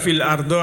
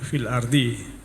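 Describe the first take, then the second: First: The last word ends in an o vowel. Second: The last word ends in an i vowel. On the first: The speaker calls it wrong. "Tidak ada fil ardo" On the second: The speaker calls it right. "maka dibaca dibaca jer ardi"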